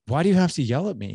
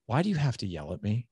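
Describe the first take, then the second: First: Son's protest repeated higher, louder and faster. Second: Said in the usual way. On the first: Retold or imitated. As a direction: push the question back harder, faster. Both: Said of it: "he goes".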